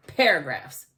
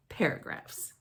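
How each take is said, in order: First: Said in the usual way. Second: Paragraphs breathed in a voiceless whisper. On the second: Acted. Kid narrator whispers Paragraphs in disgust. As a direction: whisper Paragraphs like a dirty word.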